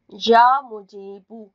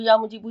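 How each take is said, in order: First: It is said slowly and carefully. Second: It is said quickly and hurriedly.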